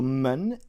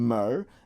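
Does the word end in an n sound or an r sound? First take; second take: n sound; r sound. First: The word ends with an n sound. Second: The word ends with an r sound. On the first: This is the southern way of saying it. "mun is is how it's pronounced in the south" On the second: This is the northern way of saying it. "mer is how we pronounce it in the north"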